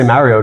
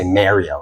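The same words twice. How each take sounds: First: The first syllable has an open 'ah' vowel. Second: The first syllable has a 'may' vowel. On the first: The speaker calls it right. "I said Ma" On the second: The speaker calls it wrong. "I didn't say May"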